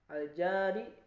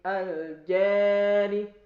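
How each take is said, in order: First: The long vowel is a pure open a. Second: The long vowel leans toward e.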